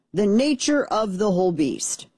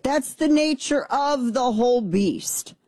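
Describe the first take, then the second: First: Said in the usual way. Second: Drawn-out emphasis. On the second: Shown as a demonstration.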